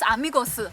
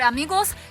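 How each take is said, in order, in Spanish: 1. La palabra termina con una sílaba extra, si. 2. La palabra termina en un sonido de s simple. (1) "no es una S española, sino que es una sílaba china que se transcribe como S I" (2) "en lugar de decir amigos"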